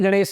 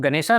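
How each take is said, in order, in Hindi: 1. नाम sh व्यंजन ध्वनि पर खत्म होता है। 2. नाम के अंत में लंबा a स्वर जुड़ता है। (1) "एक्चुअल में गणेश है" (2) "तो गणेशा नहीं है"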